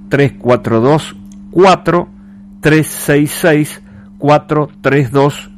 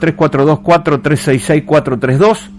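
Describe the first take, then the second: First: The number is read at a slower pace. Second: The number is read at a faster pace.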